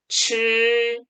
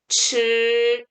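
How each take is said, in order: The two takes are said the same way.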